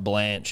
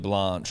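First: The name is said in an Australian accent. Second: The name is said in a posh, refined accent. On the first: This is how Australians would say it. "if you're Australian" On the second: This is how the family would have said it. "in my household, darling"

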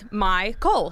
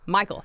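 First: The name ends with a syllable like Cole. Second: The name sounds like the common name Michael. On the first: The speaker calls it right. "But it's MyCole" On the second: The speaker calls it wrong. "Just like regular old Michael"

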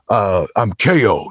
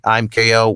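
First: The voice sounds loose, casual and friendly. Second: The voice sounds mechanical and robotic. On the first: The character feels like a friendly brother. The speaker calls it right. "he's very loose and just kind of like" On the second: The character comes across as funny. The speaker calls it wrong. "a robot wouldn't sound cool just saying"

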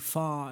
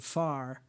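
First: It is said in a British way. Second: It is said in an American way. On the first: "things that we think of now as British, like ... saying far" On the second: "instead of far"

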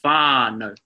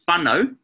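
First: The first A sound is long. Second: The first A sound is short. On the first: The speaker calls it right. "we're saying whānau, whānau, so it's a long A sound" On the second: The speaker calls it wrong. "rather than saying"

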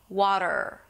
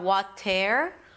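First: The last syllable is a soft R only. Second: The last syllable has a full E vowel. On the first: The speaker calls it right. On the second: The speaker calls it wrong.

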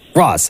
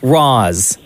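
First: The name is said short and quick. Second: The name is stretched out and said slowly.

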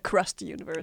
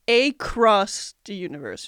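First: The phrase is said quickly, run together. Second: The phrase is said at a normal pace.

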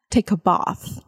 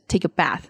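First: It is said with a British accent. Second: It is said with an American accent.

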